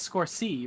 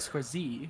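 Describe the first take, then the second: First: The final syllable starts with an S sound. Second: The final syllable starts with a Z sound. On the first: This is the usual way to say it. "I mean it's score C" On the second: This is how the other person says it. "you say score Z, like with a Z"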